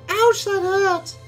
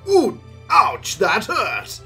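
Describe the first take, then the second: First: It is said in a put-on scruffy young woman's voice. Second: It is said dramatically in the speaker's own voice.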